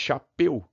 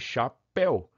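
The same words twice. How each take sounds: First: The final vowel sounds closed. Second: The final vowel sounds open. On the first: The speaker calls it wrong. "para que eu não fale chapéu" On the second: The speaker calls it right. "ditongo aberto"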